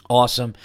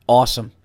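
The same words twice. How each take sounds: The two takes are said the same way.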